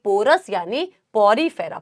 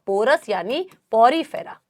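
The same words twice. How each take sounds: No difference in how they are said.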